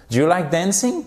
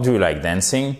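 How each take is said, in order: First: "dancing" lifted high in a rising tune; vraie question. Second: Low question, without a real asking lift on "dancing"; intonation descendante. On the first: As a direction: really ask it, pitch climbing on "dancing". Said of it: "Là, je vous la pose vraiment". (vraie question, intonation montante sur « dancing ») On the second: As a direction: keep "dancing" low, as if you doubt it. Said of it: "Avec une intonation descendante". (intonation descendante sur « dancing ») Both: Shown as a demonstration.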